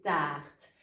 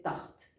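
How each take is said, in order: First: TARTE with a long, stretched A; son long. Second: TARTE with a short, quick A; son court. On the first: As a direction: draw out the vowel in TARTE. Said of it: "le son doit rester long". (« tarte » avec un A long et étiré) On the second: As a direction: cut the vowel short in TARTE. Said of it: "mon son devient court". (« tarte » avec un A bref) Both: Shown as a demonstration.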